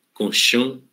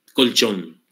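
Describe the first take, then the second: First: Colchón said as konshong, sh for ch and a nasal ng ending; Guaraní pronunciation. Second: Colchón with a clear ch and a final n; Spanish pronunciation. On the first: Teacher showing how Guaraní speakers say colchón. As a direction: soften colchón to konshong with a rising end. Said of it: "Y entonces en guaraní". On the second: Teacher giving the Spanish original colchón, clearly pronounced. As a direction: say colchón the Spanish way: kol-CHON. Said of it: "y a todas les quitó la N". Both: Shown as a demonstration.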